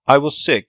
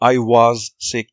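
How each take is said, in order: First: The word was is reduced to a weak form. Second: The word was is said fully and strongly. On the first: The speaker calls it right. "I was sick diyoruz mesela" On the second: The speaker calls it wrong. "I was sick demiyoruz"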